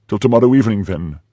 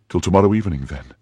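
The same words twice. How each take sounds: First: Higher, loud, defiant retort; enraged echo. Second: Firm, dropping away on "then"; parting threat. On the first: Prisoner throws back her captor's farewell, loud and enraged. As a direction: hurl his words back. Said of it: "biting the carpet with rage". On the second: Captor leaves his prisoner, firm parting words. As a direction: leave it as an ultimatum. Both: A narrator's reading.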